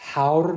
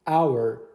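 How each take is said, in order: First: The word starts with an audible h sound. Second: The word starts with a vowel sound, no h. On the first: The speaker calls it wrong. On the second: The speaker calls it right. "یعنی تلفظش مثل انگار با ا شروع میشه که با صداست"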